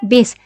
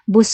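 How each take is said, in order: First: The vowel is an 'ee'-like i sound. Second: The vowel is an 'oo'-like u sound. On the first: This is the informal, non-standard form. The speaker calls it wrong. "But this one is um, uh, uh, non-standard language" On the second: This is the standard form. The speaker calls it right. "it's supposed to be bus"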